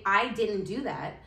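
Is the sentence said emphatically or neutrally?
neutrally. The sentence is said evenly with no extra emphasis.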